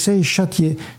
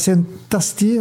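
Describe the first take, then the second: First: The second word starts with a 'sh' sound. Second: The second word starts with a plain vowel. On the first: The speaker calls it right. "on dit Saint-Châtier" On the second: The speaker calls it wrong. "on ne dit pas Saint-Astier"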